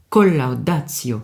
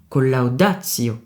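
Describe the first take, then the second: First: The first syllable has a secondary stress. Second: The first syllable has no secondary stress. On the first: The speaker calls it right. "Col, si je puis dire, est invité à prendre un peu de place" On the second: The speaker calls it wrong. "on ne dit pas"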